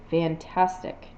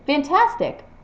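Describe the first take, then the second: First: The word is said in a sarcastic tone. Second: The word is said in a happy tone. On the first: The speaker does not really think it is great. "my tone conveys sarcasm" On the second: The speaker is genuinely pleased. "my tone conveys happiness"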